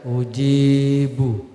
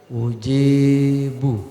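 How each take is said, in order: No difference in how they are said.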